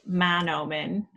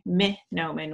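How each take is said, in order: First: The first vowel is an 'a' sound. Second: The first vowel is an 'i' sound. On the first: "some folks say Manoomin with the A" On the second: "some people say Minoomin with the I"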